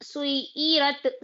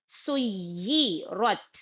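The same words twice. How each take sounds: First: सुई रत said with a light, unstressed ya, the wrong way; wrong way demo. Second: सुई रत with a firm, doubled ya, very slow; stressed ya. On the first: Teacher demonstrates the mistake students make, lightly. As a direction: show the weak सुई रत. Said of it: "सुई रत नहीं बोलना". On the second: Teacher models the correct doubled ya, slowly and firmly. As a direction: press hard on the ya in सुई रत. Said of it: "या पे सख्ती भी डालना है". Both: Shown as a demonstration.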